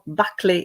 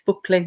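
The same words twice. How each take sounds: First: The name is said with an English pronunciation. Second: The name is said with a Welsh pronunciation. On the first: "in English" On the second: "in Welsh"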